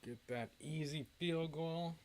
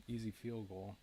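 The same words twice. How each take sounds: First: Higher, slow, teasing drawl on field goal; drawn-out mocking. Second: Said in the usual way. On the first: Shown as a demonstration. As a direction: stretch it out like a taunt. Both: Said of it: "repeats it drawn out".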